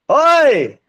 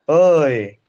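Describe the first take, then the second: First: It is shouted loudly. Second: It is said softly and sweetly.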